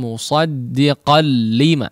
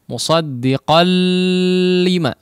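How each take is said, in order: First: The 'la' sound is short, merged straight in. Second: The 'la' sound is stretched out long. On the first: The speaker calls it right. "tapi langsung musaddiqal lima" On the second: The speaker calls it wrong. "Tanpa dipanjangkan, bukan musaddiqal lima"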